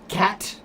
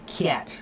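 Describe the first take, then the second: First: The vowel in cat sounds general American. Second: The vowel in cat sounds Northern Ohio. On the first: "when you say the word cat" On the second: "it might be cat"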